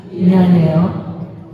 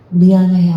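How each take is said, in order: First: 미안해요 drawn out very slowly, rising at the end; group repeat. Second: 미안해요 said loud and short, a clear model; model phrase. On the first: Congregation repeating the phrase slowly with a rising end. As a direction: stretch 미안해요 out slowly with a rise. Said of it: "해보세요". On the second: Lecturer modelling the phrase for the congregation, loud and clear. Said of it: "자, 따라하세요". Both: Shown as a demonstration.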